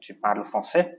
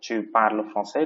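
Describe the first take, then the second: First: The voice rises at the end. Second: The voice falls at the end.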